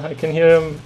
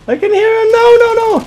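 First: Said in the usual way. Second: Very high, loud panicked shriek. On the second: Real, not acted. Gamer hears an enemy closing in, girly scream. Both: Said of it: "girly screams forever".

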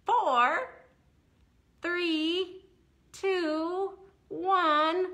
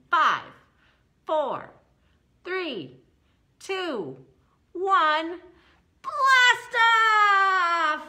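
First: Countdown. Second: Each number climbing to a big shouted launch; excited countdown. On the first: Acted. Rocket countdown for kids. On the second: Pretend. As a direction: count down then yell blast off, much higher and louder. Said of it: "That was so much better".

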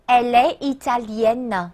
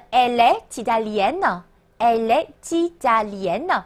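First: Elle est italienne with silent t in est; slow elle est italienne, no t linking the words; elle est italienne said as "el-ay ee-ta-lyen"; without liaison. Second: Elle est italienne with est's t linked onto italienne; elle est italienne said as "el-ay tee-ta-lyen"; with liaison. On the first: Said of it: "可连可不连". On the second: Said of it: "那你会听到连读的情况". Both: Shown as a demonstration.

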